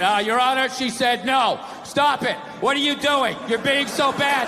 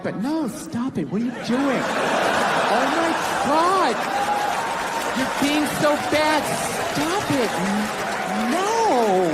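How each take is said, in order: First: Flat deadpan courtroom read of stop it; monotone legal reading; bad read. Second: Coy, giggly mock protest, in a different voice; lightly voiced flirty woman; playful no. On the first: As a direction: read it like a bored clerk. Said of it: "you get a bad read". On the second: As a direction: tease while saying stop it. Woman teasing, saying no playfully.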